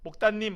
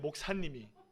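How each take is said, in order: First: The middle consonant is a tense 'tt' sound. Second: The middle consonant is a soft 's' sound. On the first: "그래서 맨날 저는 이렇게 불러요" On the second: "얘네들이 발음이 안 돼요"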